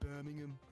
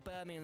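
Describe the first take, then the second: First: It is said in a put-on local Birmingham accent. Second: It is said in the speaker's ordinary voice. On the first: The speaker calls it right. "You gotta go Birmingham" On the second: The speaker calls it wrong. "you can't say Birmingham in a normal voice"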